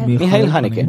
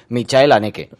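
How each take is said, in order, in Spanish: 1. El nombre se pronuncia a la manera alemana. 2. El nombre se pronuncia a la manera española.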